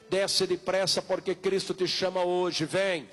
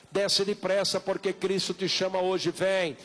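Both takes have the same delivery.

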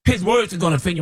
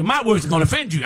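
First: "words" leaned on in "His words are gonna offend you"; stress on words. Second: "My" hit hard with a falling tune; stress on my. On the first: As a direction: put the weight on "words". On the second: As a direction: punch "My" as the contrast to "His". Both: Shown as a demonstration.

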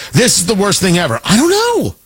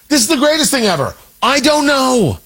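First: Mock alarmed. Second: Mock thrilled. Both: Mocking pundit certainty flip.

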